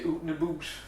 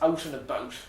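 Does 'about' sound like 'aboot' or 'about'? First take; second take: aboot; about. First: The vowel in 'out' sounds like 'oo'. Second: The vowel in 'out' sounds like 'ow'. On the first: "they say oot and aboot" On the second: "Canadians don't say out and about"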